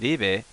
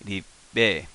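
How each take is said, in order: First: It is said smoothly with no pause before be. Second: A very slight pause comes before the be. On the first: The speaker calls it wrong. "Instead of ribe" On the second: The speaker calls it right. "It's a very slight pause"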